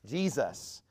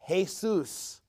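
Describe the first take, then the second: First: The name is said the English way. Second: The name is said the Spanish way. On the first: "And in English, we call it Jesus" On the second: "In Spanish"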